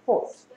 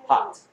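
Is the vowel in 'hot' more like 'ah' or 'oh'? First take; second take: oh; ah. First: The vowel is a rounded 'oh' sound. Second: The vowel is an open 'ah' sound. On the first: "영국 사람들은 hot" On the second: "미국 사람들은 hot"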